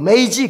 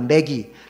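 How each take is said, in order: First: The g is soft, like j. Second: The g is hard, like in go. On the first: This is the English pronunciation. "영어 발음으로는 메이지" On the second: This is the common reading in books. "보통 이제 어떤 책을 읽거나 그러면 매기라는 말이 나요"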